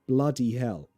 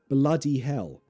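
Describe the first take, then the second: First: It is said in a London accent. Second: It is said in a London accent.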